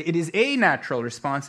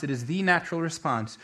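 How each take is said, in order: First: A said in full as a stressed word. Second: THE said as a long, stressed "thee". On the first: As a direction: lean on the article A before natural. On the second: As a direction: lean on the article THE before natural. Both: Shown as a demonstration. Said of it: "or you could say".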